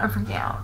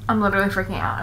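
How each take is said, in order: First: Softer, still spooked; hushed fright. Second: Real scared whisper; frightened whisper. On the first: Alone reading at night, quietly telling viewers her fear. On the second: Alone reading at night, whispering her real fright. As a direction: breathe it out, spooked. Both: Real, not acted.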